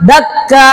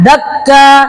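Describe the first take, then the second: No difference in how they are said.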